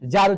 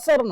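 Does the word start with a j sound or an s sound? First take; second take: j sound; s sound. First: The word starts with a j sound. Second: The word starts with an s sound. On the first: The speaker calls it right. "জার উচ্চারণ হবে" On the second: The speaker calls it wrong. "টি এস A আর টা সর না"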